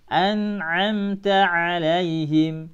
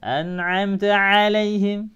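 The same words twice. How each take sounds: First: The phrase is said slowly and relaxed. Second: The phrase is said quickly and run together. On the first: The speaker calls it right. "pelan-pelan saja" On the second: The speaker calls it wrong.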